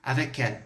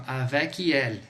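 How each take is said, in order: First: "avec elle" run together as one word, a-vè-kèl; linked pronunciation. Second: "avec elle" as two words, K released before "elle"; wrong unlinked pronunciation. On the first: Teacher showing the liaison in one go, linked pronunciation. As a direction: glide the K straight into "elle". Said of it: "de uma vez só". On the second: Teacher showing students what not to say, wrong unlinked pronunciation. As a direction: break "avec elle" apart after a clear K. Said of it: "Você não vai falar assim". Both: Shown as a demonstration.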